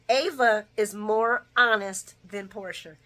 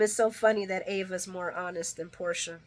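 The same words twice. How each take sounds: First: "Ava is more honest than Portia" slow, loud and deliberate; emphatic restatement. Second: Said in the usual way. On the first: Real, not acted. Restates the point slowly for emphasis.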